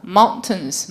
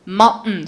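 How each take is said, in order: First: The t is clearly released, British style. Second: The t is cut off, American style. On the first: "mountains라고 읽는 사람들은 영국 사람" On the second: "미국 애들은 어떻게 읽어요? 끊, 끊는 발음"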